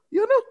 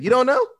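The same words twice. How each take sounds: First: Jumps way higher for the repeat; mock interrogator, higher. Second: Mock disbelieving question, pitched up and louder; mock interrogator. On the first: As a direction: pile on the disbelief, pitched far up. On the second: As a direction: push him for an answer. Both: Retells Jim's interrogation.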